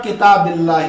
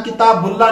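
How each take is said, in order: First: किताबिल्लाह with a short "i" after the b; zer reading. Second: किताबुल्लाह with a short "u" after the b; rejected pesh reading. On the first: Teacher showing students the case ending, किताबिल्लाह with zer "bil". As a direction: say किताबिल्लाह as kitaa-bil-laah, not bul. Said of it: "यहाँ पढ़ रहा आप किताबिल्लाह". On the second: Teacher showing what not to read here, किताबुल्लाह with pesh "bul". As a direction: say किताबुल्लाह as kitaa-bul-laah, not bil. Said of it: "यहाँ किताबुल्लाह नहीं पढ़ेंगे". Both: Shown as a demonstration.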